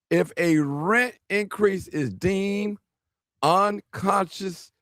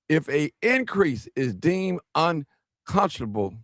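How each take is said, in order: First: It is read slowly and deliberately. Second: It is read at normal, quicker speed.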